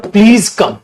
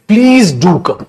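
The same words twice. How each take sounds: First: Said in the usual way. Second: "do" leaned on for emphasis; stress on do. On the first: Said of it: "अगला example". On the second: Shown as a demonstration. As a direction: push "do" to insist. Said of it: "इसी को emphasise करो". ("do" पर ज़ोर देकर आग्रह करो)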